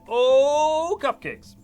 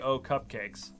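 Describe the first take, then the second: First: The 'oh' is drawn out long and loud. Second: The 'oh' is short and plain. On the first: The speaker calls it right. "you have to say it like that" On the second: The speaker calls it wrong. "You can't just say"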